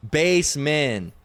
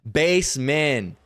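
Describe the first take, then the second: No difference in how they are said.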